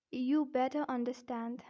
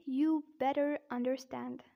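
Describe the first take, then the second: First: British demo, Rs dropped in better and understand; careful British-accent example sentence. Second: American demo, Rs sounded in better and understand; careful American-accent example sentence. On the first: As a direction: say it with a non-rhotic British accent. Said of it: "first I'll say in British accent". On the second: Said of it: "but in American accent". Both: Shown as a demonstration.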